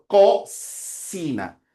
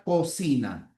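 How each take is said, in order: First: "Cocina" very slow, loud "Co", then a long hissed s; two sounds shown. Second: Said in the usual way. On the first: Shown as a demonstration. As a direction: split "Cocina" to contrast k and s. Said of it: "Tiene dos sonidos".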